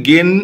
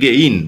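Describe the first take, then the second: First: গেন said with a flat single e, no glide; common wrong way. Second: গেইন with the e gliding into i; correct diphthong. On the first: Teacher showing students the wrong গেন. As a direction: give গেন as students usually say it, plain e. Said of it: "সাধারণত গেনই বলে ফেলি". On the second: Teacher correcting students with the proper গেইন. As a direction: say গেইন with a clear ei glide. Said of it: "actually উচ্চারণটা হবে গেইন". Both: Shown as a demonstration.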